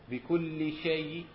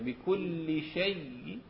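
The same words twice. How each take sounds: First: The final y sound is single and light. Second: The final y sound is doubled and geminated. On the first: "مع التخفيف" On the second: "بنفس الطريقة ولكن مع الروم"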